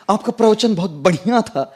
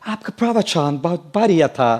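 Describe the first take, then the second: First: It is said in a north Indian accent. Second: It is said in an American accent. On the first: The speaker sounds like a native from Uttar Pradesh. "तो बढ़िया बोला मतलब UP हो गया ना" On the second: The speaker sounds like a foreigner speaking Hindi. "if an American speaks Hindi and says"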